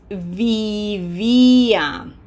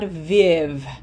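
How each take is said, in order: First: The stressed i is held long and clear. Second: The stressed i is clipped short. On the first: The speaker calls it right. "This is vivia" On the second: The speaker calls it wrong. "this is not viv"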